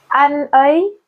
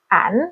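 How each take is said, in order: First: It is said as two separate syllables. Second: It is merged into one short syllable.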